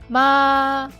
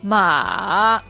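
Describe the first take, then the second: First: The pitch stays high and level. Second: The pitch dips low, then rises high. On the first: Mom. "The first tone, high and flat" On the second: Horse. "The third tone, low to the bottom, then up to high"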